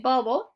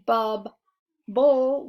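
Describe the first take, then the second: First: The middle B sound is pronounced once. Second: The middle B sound is pronounced twice. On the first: The speaker calls it right. "we say bubble" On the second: The speaker calls it wrong. "we don't say bub, bull"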